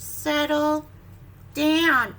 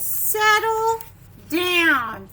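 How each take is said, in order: First: Said in the usual way. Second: Firm loud settle down; firm parent. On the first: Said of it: "That's that word". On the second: Acted. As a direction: call it out to a bouncing child. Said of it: "It says".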